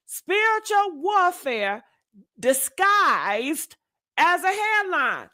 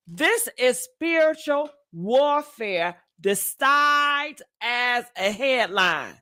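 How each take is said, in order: First: Spiritual pitched up, pauses before disguised and as a headline; emphatic repeat. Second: Said in the usual way. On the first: Shown as a demonstration. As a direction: land each chunk separately, Spiritual hit high. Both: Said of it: "Do you hear what I'm saying?".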